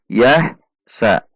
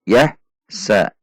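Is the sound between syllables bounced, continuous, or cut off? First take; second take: cut off; cut off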